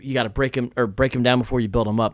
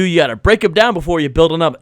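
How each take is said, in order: First: It is said plainly, with no added enthusiasm. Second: It is said with exaggerated, fake enthusiasm. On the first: The line is meant sincerely. The speaker calls it wrong. "do the literal" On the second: The line is sarcastic and insincere. The speaker calls it right. "Do it with a false exuberance"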